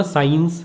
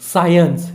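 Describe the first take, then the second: First: साइंस said as "sains", a flat two-syllable sound; the common wrong way to say साइंस, "sains"; साइंस pronounced "sains" with no glide; wrong pronunciation. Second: साइंस said as "sai-ens", with a clear glide into the second syllable; the right way to say साइंस, "sai-ens"; careful "sai-ens" for साइंस; correct pronunciation. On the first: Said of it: "गलत pronunciation है ये". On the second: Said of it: "इसको कैसे pronounce करते हैं?". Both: Shown as a demonstration.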